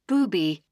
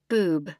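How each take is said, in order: First: The name is said as booby, two syllables. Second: The name is said as boob, one syllable. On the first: "they'll even pronounce it the all-impressive booby" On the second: "They read it like they see it"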